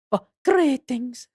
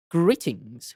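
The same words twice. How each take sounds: First: Higher, drawn-out GREETINGS; witch's greeting. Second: Said in the usual way. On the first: Acted. Newly appeared witch greets the visitors, slow higher character voice. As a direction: stretch GREETINGS slowly in a raised character voice.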